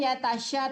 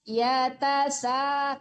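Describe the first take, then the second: First: The consonant is a hissing 'sh' sound. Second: The consonant is a thin plain 's' sound. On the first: The speaker calls it wrong. "jangan ya tasya" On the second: The speaker calls it right. "tapi ya tasa s ya tasa tipiskan"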